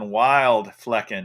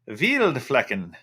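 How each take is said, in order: First: The name starts with a W sound. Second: The name starts with a V sound. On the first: The speaker calls it wrong. "No, that's not how you pronounce it" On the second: The speaker calls it right. "The W is pronounced like a V"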